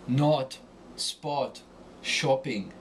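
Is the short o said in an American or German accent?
German. The short o is a rounded German-style vowel. "But Germans pronounce it more European style"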